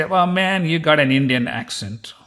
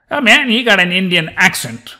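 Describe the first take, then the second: First: Said in the usual way. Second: Louder, higher mock remark on an accent; mock exclamation. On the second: Locals remarking on his Indian accent, mock exclamation. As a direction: exclaim it like an imitated onlooker.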